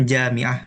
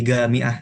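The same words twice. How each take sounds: First: Said in the usual way. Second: Jamiah said as gamiah, the j turned into a hard g; jim as hard g. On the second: Shown as a demonstration. Teacher demonstrating the dialect g in jamiah, gamiah. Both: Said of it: "jim itu dibaca goin".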